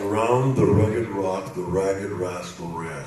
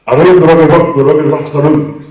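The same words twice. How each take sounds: First: Schots accent, rustiger herhaald; Scottish accent. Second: Loud Scottish tongue twister with a rolled r; Scottish accent. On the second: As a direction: roep het in een Schots accent. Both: Shown as a demonstration. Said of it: "If you're Scottish, you understand this".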